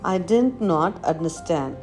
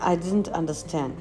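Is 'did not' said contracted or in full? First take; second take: full; contracted. First: Did not is said as two full words. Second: Did not is shortened into one word, didn't.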